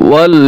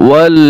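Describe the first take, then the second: Both takes have the same delivery.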